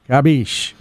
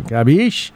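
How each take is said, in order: First: "Capiche." said flat as a statement, falling at the end. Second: "Capiche?" with a questioning rising tune at the end; asking rise. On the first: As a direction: state "Capiche." firmly, tune dropping down. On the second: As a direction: ask "Capiche?" like a question, voice going up. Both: Shown as a demonstration. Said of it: "watch your inflection so it doesn't sound like you're asking a question".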